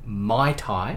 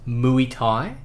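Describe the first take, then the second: First: The first word sounds like 'mai'. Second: The first word sounds like 'moo-ay'. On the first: "Brandon and Darby pronounced it Mai Thai" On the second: "I said that it's pronounced Muay Thai"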